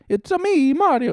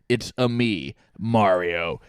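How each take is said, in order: First: It is a high-pitched cartoon voice. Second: It is a gruff, angry voice.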